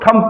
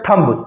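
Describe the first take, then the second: First: The final b sound is silent. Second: The final b sound is pronounced. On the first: The speaker calls it right. "बी जो word है वो silent रहता है" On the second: The speaker calls it wrong. "हम पढ़ते हैं थंब"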